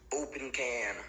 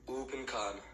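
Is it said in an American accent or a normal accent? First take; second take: American; normal. First: It is said in an American accent. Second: It is said in the speaker's normal accent.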